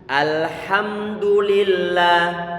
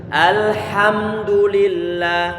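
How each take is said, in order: The two takes are said the same way.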